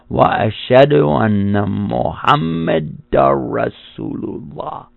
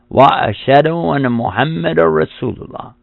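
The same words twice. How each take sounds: First: It is said slowly. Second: It is said at normal speed.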